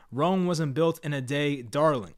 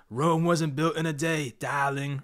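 First: Said in the usual way. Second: A light hint of Gettleman's New England accent on darling; imitating Gettleman's accent. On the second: Fan mocking the Giants GM in a mild New England accent. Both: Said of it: "But in Gettleman's accent".

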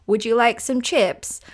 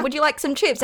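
First: British accent. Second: Said in the usual way. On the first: Shown as a demonstration. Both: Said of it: "That sounded really British for a second".

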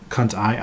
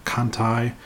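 First: Contai said kun-TIE, short first vowel; alternative pronunciation. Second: Contai said KON-tie, ending like eye; alternative pronunciation. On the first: Podcaster giving up on a wrestler's surname, tentative pronunciation. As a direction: try Contai with a reduced first syllable. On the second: Podcaster trying out versions of a surname, variant pronunciation. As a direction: offer Contai with a full first vowel. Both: Shown as a demonstration. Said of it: "They call her".

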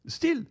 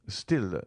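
First: Breathy high echo of still; high mocking echo. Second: Said in the usual way. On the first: Old lady throwing back Villefort's word, high and hushed. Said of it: "marchioness echoes his word". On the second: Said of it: "Villefort objects".

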